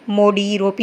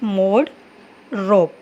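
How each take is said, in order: First: Each word ends with an added ee vowel. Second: Each word ends on its final consonant. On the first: The speaker calls it wrong. "मोडी रोपी नहीं कहते हम" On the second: The speaker calls it right. "यहाँ पर सिर्फ मोड रोप"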